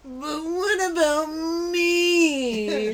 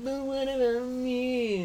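First: High, very slow whine; whiny character voice. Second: Slow whining plea; whiny voice. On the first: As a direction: drag it out in a whine. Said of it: "Kyle had a character". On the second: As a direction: whine it out slowly. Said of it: "it feels like". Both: Retold or imitated.

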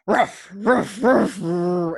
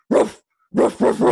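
First: Thicker German bark. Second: Loud mock barking like a dog. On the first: Retold or imitated. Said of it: "it's like a thicker barking". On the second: Barking with her dog at a stranger, loud and playful. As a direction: bark out loud along with the dog. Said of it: "I go and I bark".

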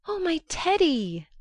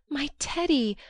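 First: High, louder overjoyed cry of Teddy; joyful cry. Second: Rising joyful call of Teddy, a touch louder; joyful cry. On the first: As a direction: burst out with Teddy, overwhelmed with joy. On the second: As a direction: call out Teddy in glad surprise. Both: A narrator's reading. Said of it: "crying joyfully".

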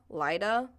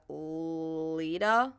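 First: Lida as LIE-da, questioning; alternative pronunciation. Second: Lida as LEE-da, drawn out and questioning; unsure pronunciation. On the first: Reader guessing the mayor's name, Lida as an unsure LIE-da. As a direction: try Lida rhyming its first syllable with "lie". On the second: Reader guessing the mayor's name, Lida as an unsure LEE-da. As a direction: try Lida with a long "ee" first syllable. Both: Real, not acted. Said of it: "I don't know how to say your name".

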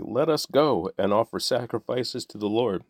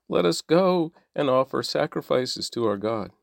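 First: Lightly mocking echo of the plea; mild mocking quote. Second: Mock whiny plea, pitched higher; mocking whine. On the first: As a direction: sneer the plea back at them. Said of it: "That's why you're saying". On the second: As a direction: ape the slaves' crying out with scorn. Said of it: "That's why they are crying out".

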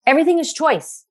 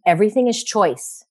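First: "Everything" lifted much higher for emphasis; emphatic repeat. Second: Said in the usual way. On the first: Shown as a demonstration. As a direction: repeat it, pitching "Everything" up high.

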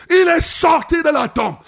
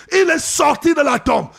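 No difference in how they are said.

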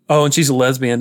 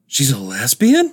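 First: Said in the usual way. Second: Incredulous mom. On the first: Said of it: "And they're like". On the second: Retold or imitated. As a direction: imitate a taken-aback mother, drawing it out. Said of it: "And the mom is like".

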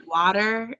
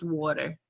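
First: Water with an open ah in the first vowel, questioning; others' pronunciation. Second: Water with a rounded aw in the first vowel; softer, lower water, said waw-ter; her own pronunciation. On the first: Retold or imitated. Guest quoting people who question her word, Water with an ah. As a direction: mimic others querying Water, said wah-ter. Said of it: "they were like". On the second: Shown as a demonstration. Guest correcting those who query her, water with an aw. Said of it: "when I say water".

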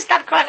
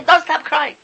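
First: Said in the usual way. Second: Don't said loud and firm; stress on Don't. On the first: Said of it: "Hashem says". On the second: Retold or imitated. Preacher countering Hashem, stress on Don't. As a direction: lean hard on Don't. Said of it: "I say".

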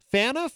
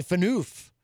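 First: Fanouf stressed on the first syllable, like FAN-uf; corrected pronunciation. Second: Fanoof with a long oo, stressed at the end; fun mispronunciation. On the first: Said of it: "says it's pronounced". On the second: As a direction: say Fanoof as fuh-NOOF. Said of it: "more fun to say Fanoof". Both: Shown as a demonstration.

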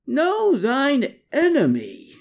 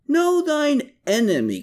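First: Drawn-out high screech, Know stretched long; slow screech. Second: High pitched shrill cry of Know, falling off; screeched. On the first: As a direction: Klaus shrieks it again, slowly. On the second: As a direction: Klaus shrieks his motto high up. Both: A narrator's reading. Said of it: "Klaus screeched".

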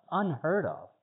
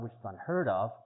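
First: Unheard of repeated higher and punched; emphatic repeat. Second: Said in the usual way. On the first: Real, not acted. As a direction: drive home unheard of.

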